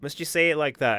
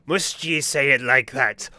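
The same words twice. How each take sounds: First: Said in the usual way. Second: Slow, hammed-up pirate voice; mocking the pirate. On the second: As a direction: drag the words out like a swaggering pirate. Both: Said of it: "He do be talking like that".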